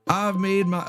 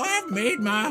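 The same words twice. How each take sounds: First: It is said in a normal voice. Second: It is said in a put-on old man voice. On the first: The speaker calls it wrong. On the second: The speaker calls it right.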